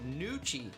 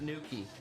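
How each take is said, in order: First: The middle consonant is ch, rhyming with Gucci. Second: The middle consonant is a hard k sound. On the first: The speaker calls it right. "Nuki like Gucci, not Nookie" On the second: The speaker calls it wrong. "not Nuki"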